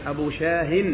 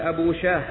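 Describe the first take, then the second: First: The name ends with an h plus n sound. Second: The name ends without a final n sound. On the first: The speaker calls it right. "بهاء منونة" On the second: The speaker calls it wrong. "ولا تقل"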